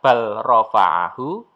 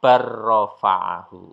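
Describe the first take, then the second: First: The L sound is pronounced before the R. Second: The L merges into a doubled R sound. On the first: The speaker calls it wrong. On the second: The speaker calls it right. "lamnya dihilangkan"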